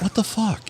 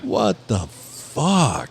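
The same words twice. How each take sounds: First: It is said flatly, without much feeling. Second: It is said with strong, emphatic feeling.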